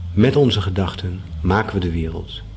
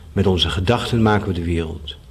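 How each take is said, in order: The two takes are said the same way.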